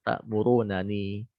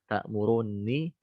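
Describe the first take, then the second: First: The two n sounds are said separately. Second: The two n sounds merge into one. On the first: "asal kata" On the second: "dia didoromkan"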